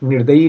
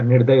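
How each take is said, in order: First: निर्दयी said with "-yee" at the end; the faulty three-part nir-da-yee; wrong final ee. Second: निर्दय said lower, ending "-day"; the corrected two-part nir-day; correct ending without ee. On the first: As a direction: add a long ee to finish निर्दयी. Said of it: "सिर्फ निर्दयी नहीं होता". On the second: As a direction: finish निर्दय with no ee. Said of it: "निर्दय होता है". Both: Shown as a demonstration.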